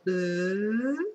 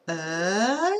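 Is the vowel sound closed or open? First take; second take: closed; open. First: The vowel is said with the mouth more closed. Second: The vowel is said with the mouth more open. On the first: "le son E qui est fermé" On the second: "c'est plus ouvert au niveau de ma bouche parce que le E est ouvert"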